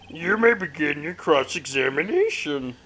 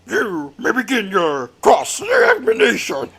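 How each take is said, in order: First: It is said in a plain voice. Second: It is said in a dramatic voice.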